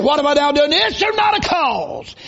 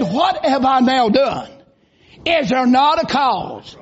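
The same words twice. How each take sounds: First: Indignant cry. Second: Said in the usual way. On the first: Retold or imitated. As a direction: demand it, building to a shout on not. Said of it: "He said". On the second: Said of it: "And David said".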